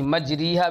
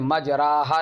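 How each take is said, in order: First: The vowel after r is a pure long i. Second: The vowel after r is a pure long a. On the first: "न या खालिस पढ़ी जाएगी" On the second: "फ़तह खालिस और अलिफ खालिस ना पढ़ा जाएगा"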